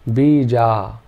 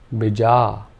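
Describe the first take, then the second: First: Both vowels are long. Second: Only the second vowel is long. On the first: "If we made both the vowel sounds long" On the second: "by putting a bar over the A"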